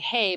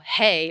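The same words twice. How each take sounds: First: It is high, tinny and wavering with vibrato. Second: It is said in a normal speaking voice. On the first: "it's way up here and it's tinny, it's vibrato" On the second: "we could just say"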